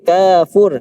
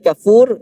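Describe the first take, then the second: First: The first vowel is said long. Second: The first vowel is said short. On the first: A cool drink in paradise. "kapnya pan, panjang" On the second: A person who is very ungrateful. "kapnya pendek"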